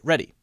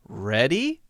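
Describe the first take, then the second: First: The pitch falls at the end. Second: The pitch rises at the end. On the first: It states that the speaker is ready. "that means I am ready" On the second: It asks whether the listener is ready. "Notice that my voice is going up at the end"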